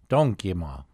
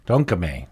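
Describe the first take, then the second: First: "Donkema" ending in an "ah" sound; mispronounced name. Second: "Donkeme" ending in an "eh" sound, said louder; corrected name. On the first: Host getting the elder's name wrong, ending "Donkema" in -a. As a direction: say "Donkema" with a final -a. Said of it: "Well, I got that wrong". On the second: Host repeating the guest's corrected name, "Donkeme" ending in -eh. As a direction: fix it: "Donkeme" with a final -eh. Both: Real, not acted.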